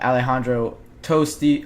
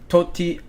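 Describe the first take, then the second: First: An s sound comes before the t. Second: No s sound comes before the t. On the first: The speaker calls it wrong. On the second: The speaker calls it right.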